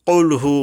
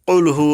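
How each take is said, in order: No difference in how they are said.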